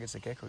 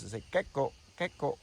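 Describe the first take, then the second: First: Said in the usual way. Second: Loud gecko chirp on the name; name imitating the gecko's call, louder. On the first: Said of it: "it's not a frog". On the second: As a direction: chirp gecko like the lizard does. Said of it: "That's why they're called geckos".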